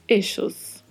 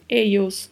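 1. O duplo L soa como o sh do inglês. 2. O duplo L soa como o y do inglês. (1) "duplo L com som de X" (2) "duplo L com som de I"

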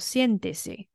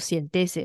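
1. 重音在第一个音节。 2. 重音在第二个音节。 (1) "人家念作siéntese" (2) "人家不念作siéntese"

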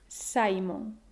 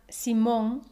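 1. El acento está en la primera sílaba. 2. El acento está en la última sílaba. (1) "con el acento en la penúltima" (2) "Simon se pronuncia Simón en español"

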